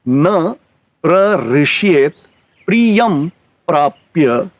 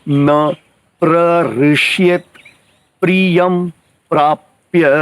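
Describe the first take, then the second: The two takes are said the same way.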